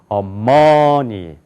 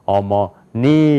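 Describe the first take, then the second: First: The stress is on the second syllable. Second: The stress is on the third syllable. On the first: "두 번째 여기가 강조가 있으면" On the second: "그 다음에"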